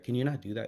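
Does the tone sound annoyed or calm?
calm. It is said calmly, without annoyance.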